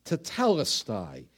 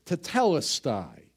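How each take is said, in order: First: "Tetelestai" low and settled, tuh-TEL-es-tie; low Greek word. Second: "Tetelestai" said as tuh-TEL-es-tie; Greek word. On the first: Preacher repeating the Greek word lower for emphasis. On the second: Preacher teaching the Greek word to the congregation, sounding it out. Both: Shown as a demonstration. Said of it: "transliterated right from the Greek".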